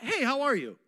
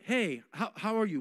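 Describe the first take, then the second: First: It is a quick, casual, offhand greeting. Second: It is slow, earnest and sincerely interested.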